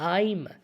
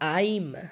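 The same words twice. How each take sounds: First: It is said as one contracted word. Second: The same.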